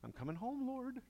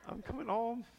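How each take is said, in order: First: Higher, half-joking plea to the Lord; mock panicked prayer. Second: Much higher and louder, laughing through it; laughing mock prayer. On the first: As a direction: pretend you're about to meet God. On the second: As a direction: repeat the plea cracking up. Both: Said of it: "I'm like".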